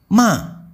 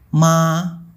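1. Nadanya turun tajam dari tinggi. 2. Nadanya tetap tinggi dan datar. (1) "ton 4 bunyinya seperti sedang marah atau membentak" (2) "Ton 1 bunyinya datar seperti ma"

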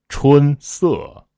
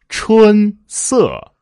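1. 降的那个音节是从低音开始的。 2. 降的那个音节是从高音开始的。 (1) "如果你春的调子低" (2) "就是从一声的调子开始往下降"

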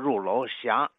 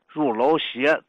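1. 最后一个音节读作 xia。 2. 最后一个音节读作 xie。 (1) "读成入楼斜" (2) "入楼斜读成"

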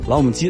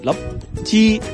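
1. 三个音节都念得很清楚。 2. 中间那个音节省掉了，只剩两个音节。

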